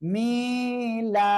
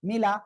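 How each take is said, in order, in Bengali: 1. শব্দটি 'mila' ধীরে বলা হয়, স্বরধ্বনি টেনে বলা হয়। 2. শব্দটি 'mila' তাড়াতাড়ি বলা হয়, স্বরধ্বনি ছোট। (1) "এরকম টান দেওয়া যাবে না" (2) "হরকতের উচ্চারণ সর্বদা তাড়াতাড়ি করতে হবে"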